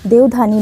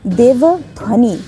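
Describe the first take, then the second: First: The ending is said as dhani, without v. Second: The ending is said as dhvani, with v. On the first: The speaker calls it wrong. "देवधानी proper word नहीं है" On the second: The speaker calls it right.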